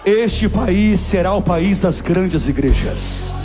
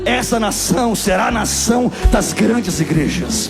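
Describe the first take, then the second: First: It is said at a normal loudness. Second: It is said more loudly.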